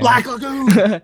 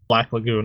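First: It is yelled loudly. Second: It is said at normal volume.

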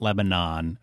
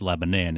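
First: It is said the general, non-local way. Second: It is said the local New Hampshire way. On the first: This is how outsiders say the town's name. The speaker calls it wrong. "It's not Lebanon" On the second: This is how natives say the town's name. The speaker calls it right. "that's just how they say it in New Hampshire"

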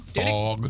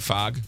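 First: The vowel is a rounded 'aw' sound. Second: The vowel is an open 'ah' sound. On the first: The speaker calls it right. "There you go" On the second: The speaker calls it wrong. "Not fog?"

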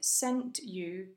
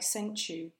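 First: The t and y stay separate sounds. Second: The t and y merge into ch.

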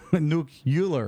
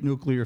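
First: The word has a deliberately mangled, mocking pronunciation. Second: The word has its ordinary standard pronunciation. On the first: "like Bush" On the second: "I meant to say it wrong"

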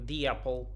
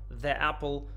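First: The article sounds like 'thee' before the vowel. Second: The article sounds like 'thuh' before the vowel. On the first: The speaker calls it right. "в беглой речи мы говорим" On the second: The speaker calls it wrong. "звучит очень слитно и некрасиво"

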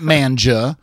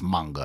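First: The middle consonant is a j sound. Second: The middle consonant is a hard g sound. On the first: The speaker calls it wrong. "Not manja" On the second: The speaker calls it right. "it's manga"

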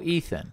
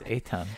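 First: The middle consonant is a 'th' sound. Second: The middle consonant is a plain 't' sound. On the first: This is how Americans mispronounce the name. The speaker calls it wrong. "They were just like, oh, Ethan" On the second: This is the name's real pronunciation. The speaker calls it right. "no, that's not. It's Eitan"

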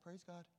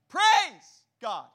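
First: It is said quietly. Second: It is shouted loudly.

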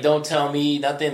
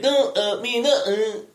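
First: It is said in a normal voice. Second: It is said in a mock Asian accent without T's.

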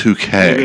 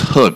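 First: The name is said as two syllables. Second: The name is said as one syllable. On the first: The speaker calls it right. "but it's hook-ay" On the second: The speaker calls it wrong. "You would think it's hook"

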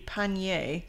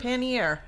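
First: The word has a French-style pronunciation. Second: The word has an English-style pronunciation. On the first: "If you were like pronouncing it like it was French" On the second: "I think it's called pannier"

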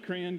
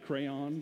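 First: Crayon is said like 'cran', southern style. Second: Crayon is said like 'cray', non-southern style. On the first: This is the speaker's own dialect. "My dialect is coming out. I'm a crayon guy" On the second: This is not the speaker's dialect. "not a crayon guy"

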